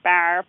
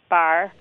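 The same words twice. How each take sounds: First: The vowel is pronounced very far forward. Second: The vowel is pronounced slightly forward. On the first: "It's not radically fronted. It's not like bar" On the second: "we hear it somewhat fronted"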